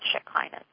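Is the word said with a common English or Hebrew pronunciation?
common English. The word is said with a common English pronunciation. "but usually people call it Shekinah"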